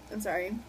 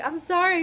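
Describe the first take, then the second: First: Said in the usual way. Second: High, louder pleading sorry; exaggerated apology. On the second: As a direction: plead it high and loud, hammed-up.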